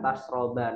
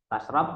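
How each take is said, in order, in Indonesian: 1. Kata ini berakhir dengan vokal a pendek. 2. Kata ini berakhir pada konsonan, tanpa vokal akhir.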